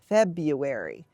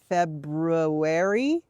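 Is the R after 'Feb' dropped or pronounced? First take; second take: dropped; pronounced. First: The R after the first syllable is dropped. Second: The R after the first syllable is pronounced. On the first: "it's much more common to hear it pronounced February" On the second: "it has that R that you will sometimes hear pronounced like February"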